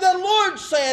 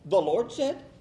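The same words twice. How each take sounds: First: It is said as a firm exclamation. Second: It is said as a doubtful question.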